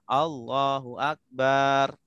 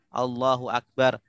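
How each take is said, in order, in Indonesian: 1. Vokal suku kata terakhir dipanjangkan. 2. Tidak ada vokal yang dipanjangkan melebihi biasanya. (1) "Ketika kita panjangkan baknya" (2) "takbir juga rukun"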